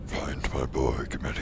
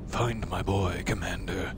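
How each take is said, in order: First: The voice is pitched very deep. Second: The voice is pitched fairly high.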